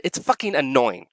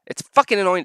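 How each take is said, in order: First: Said in the usual way. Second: Emphatic fucking; stress on fucking. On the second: Real, not acted. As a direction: lean hard on fucking.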